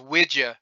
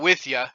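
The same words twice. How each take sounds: First: The words use a d sound after wi. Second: The words use a th sound after wi. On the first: "W I D Y A" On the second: "So it's not with ya"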